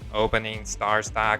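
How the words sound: It is said in a robot voice.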